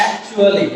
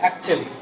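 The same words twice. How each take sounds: First: "actually" in full, ak-chu-a-li; common mispronunciation. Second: "actually" shortened to ak-chli; dropped vowel. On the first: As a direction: sound every vowel in "actually", slowly. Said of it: "actually না আসলে". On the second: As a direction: drop the "u" sound in "actually". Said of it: "ইউটাকে যদি আমরা ফেলে দেই". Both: Shown as a demonstration.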